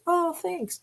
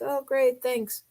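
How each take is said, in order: First: It is said in a warmer, enthusiastic tone. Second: It is said in a flat, unexcited tone.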